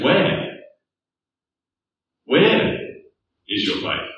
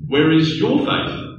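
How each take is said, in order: First: WHERE lifted high and questioning, then a drop on the rest; stress on WHERE. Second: "your" pushed higher and stronger, rising to the end; stress on YOUR. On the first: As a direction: lean hard on "Where", pause, then let "is your faith" fall away. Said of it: "where does the emphasis lie?". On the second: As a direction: hit the word "your" as a pointed question. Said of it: "put the emphasis on your". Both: Shown as a demonstration.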